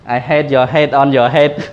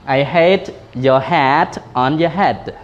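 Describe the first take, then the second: First: The vowel in hat sounds like head. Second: The vowel sounds are clearly kept apart. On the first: The speaker calls it wrong. "ដល់ពេលយើងអត់ច្បាស់" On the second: The speaker calls it right. "យើងត្រូវតែញែកគ្នាច្បាស់ណា"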